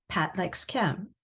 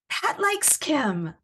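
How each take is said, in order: First: It is said as a plain statement. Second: It is said with excitement. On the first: It reports a fact. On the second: The speaker is thrilled by the news.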